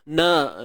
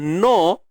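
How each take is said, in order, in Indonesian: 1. Huruf n diikuti vokal a yang tipis. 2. Huruf n diikuti vokal seperti o yang tebal. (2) "kalau tebal no, no Allah itu pun tak tepat"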